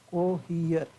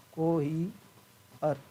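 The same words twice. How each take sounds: First: Said in the usual way. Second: कोहियर slowly split, को-ही, pause, अर; syllable by syllable. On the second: Shown as a demonstration. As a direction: break कोहियर apart with a gap before the final अर. Same word slowly broken into parts. (कोहियर को धीरे-धीरे तोड़कर)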